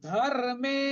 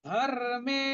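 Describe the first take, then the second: The two takes are said the same way.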